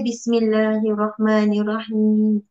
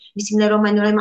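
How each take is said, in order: First: It is recited slowly. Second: It is recited fast.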